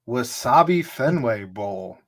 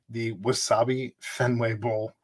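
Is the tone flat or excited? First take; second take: excited; flat. First: It is said in an excited, lively tone. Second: It is said in a flat, unexcited tone.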